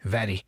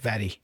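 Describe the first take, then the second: First: The R is a quick tap of the tongue. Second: The R is a quick tap of the tongue.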